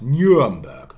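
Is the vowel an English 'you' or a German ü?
English you. The first vowel is an English you sound. "becomes Nuremberg"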